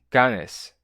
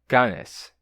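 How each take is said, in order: The two takes are said the same way.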